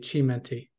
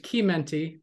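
First: The name is said with Spanish pronunciation. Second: The name is said with Italian pronunciation. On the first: This is the form used by the family. "I was raised with a Spanish family, so they say Chimenti" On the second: This is the form from the name's origin. "Technically, it's Chimenti because it's Italian"

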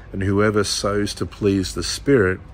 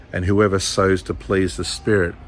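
Both takes have the same delivery.

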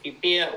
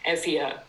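First: The name is given a traditional English pronunciation. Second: The name is given its modern Greek pronunciation.

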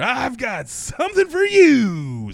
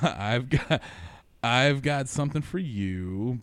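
First: It is said in an obnoxious tone. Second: It is read out in a plain tone.

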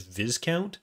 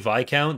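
First: The word has its American pronunciation. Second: The word has its British pronunciation. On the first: The speaker calls it wrong. "actually, it's Viscount. No, not in British English" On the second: The speaker calls it right. "whenever I say Viscount"

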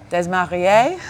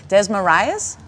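First: The name is said with a French accent. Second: The name is said without a French accent. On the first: "Say it French, French it up" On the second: "it's not Greek"

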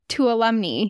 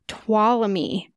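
First: The word is said with an N sound. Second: The word is said without an N sound. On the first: The speaker calls it wrong. "I always said Tuolumne" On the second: The speaker calls it right. "apparently it's Tuolumne. You don't even say the N"

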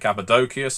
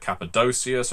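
First: The c before the ending sounds like k. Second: The c before the ending sounds like s. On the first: "I keep saying Cappadocius ... there's no soft C in the Greek" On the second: "instead of Cappadocius"

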